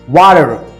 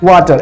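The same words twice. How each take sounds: First: It is said in an American accent. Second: It is said in an Indian English accent. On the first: "if an American speaks, how he will speak? He will say water" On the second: "in Indian English we say water"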